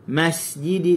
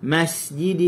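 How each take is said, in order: First: The s sound is released with natural length. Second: The s sound is released with natural length.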